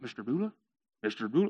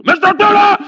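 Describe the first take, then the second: First: Low, soft questioning call; tentative calling. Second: Sudden high, loud yell of the name; wake-up yell. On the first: Camel waking his sleeping owner, tentative. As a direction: try softly to rouse a sleeper. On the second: Camel to his sleeping owner, yelling. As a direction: yell to jolt a sleeper awake. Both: Acted.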